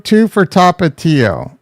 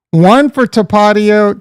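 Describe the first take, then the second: First: Tapatio as TAH-pah-TEE-oh; slowly, Tapatio with a clear TEE; second pronunciation option. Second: Tapatio as tuh-PAH-dee-oh; slow, raised pitch, Tapatio stressed on PAH; first pronunciation option. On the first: Streamer polling chat, Tapatio as TAH-pah-TEE-oh. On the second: Streamer polling chat, Tapatio as tuh-PAH-dee-oh. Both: Shown as a demonstration. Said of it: "how do you say it".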